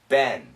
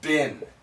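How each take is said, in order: First: The vowel is short, like ben. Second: The vowel is short, like bin. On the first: "in America, this pronunciation is ben" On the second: "And sometimes it's bin"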